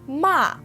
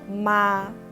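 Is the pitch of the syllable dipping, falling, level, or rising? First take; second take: falling; level. First: The pitch falls sharply from high. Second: The pitch stays high and level. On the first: It means to scold. "Ma has the fourth tone" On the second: It means mom. "the first tone, or 第一声, is called the flat tone"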